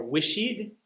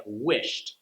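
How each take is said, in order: First: "wishied" with an extra ee syllable after the sh; wrong extra syllable. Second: "wished" as one syllable ending in a crisp t; correct wished. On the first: Teacher copying the common learner mistake, higher pitch. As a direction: drag out "wishied" as wish-ee-d. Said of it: "add the "ed" sound to every E D ending". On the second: Teacher modelling the correct form for learners. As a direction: clip "wished" short, wisht. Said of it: "technically correct". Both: Shown as a demonstration.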